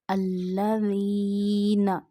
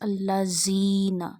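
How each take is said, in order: First: The consonant is a soft th sound. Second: The consonant is a hard z sound. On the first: The speaker calls it right. "We read Zal in Quran very, very soft voice" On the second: The speaker calls it wrong. "don't read like this"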